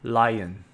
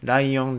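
First: It is said with an English L sound. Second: It is said with a Japanese katakana accent.

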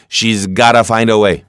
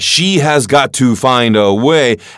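First: The words are contracted and run together quickly. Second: Every word is said fully and separately.

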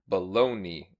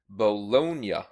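First: The word ends with an anglicized 'ee' sound. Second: The word keeps its Italian ending sound. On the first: The speaker calls it wrong. "it's common to say Bologna instead. Experts attribute this to Anglicization, which often leaves Italian words with Y endings" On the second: The speaker calls it right. "The correct pronunciation is Bologna"

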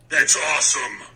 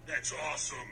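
First: It is said loudly. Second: It is said fairly quietly.

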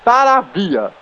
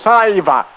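First: The name ends with the sounds 'avia'. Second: The name ends with the sounds 'aiva'. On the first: The speaker calls it right. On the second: The speaker calls it wrong.

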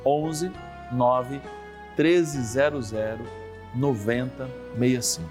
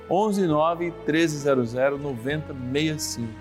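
First: The number is read more slowly. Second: The number is read at a normal speed.

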